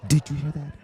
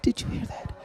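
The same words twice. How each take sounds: First: Louder, higher excited repeat. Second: Hushed whisper. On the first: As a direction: blurt it out excitedly. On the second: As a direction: whisper it conspiratorially. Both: Acted. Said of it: "said twice, whisper then loud".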